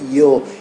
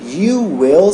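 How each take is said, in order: First: It is contracted into one short syllable. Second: It is said as two full separate words. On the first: "seria you'll" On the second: "Em vez de ser you will"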